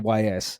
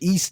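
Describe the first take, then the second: First: The name is spelled out as two letters. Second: The name is said as one word, 'east'. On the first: The speaker calls it wrong. "always say Y S" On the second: The speaker calls it right. "I actually wrote it down on my phone for this moment to pronounce it"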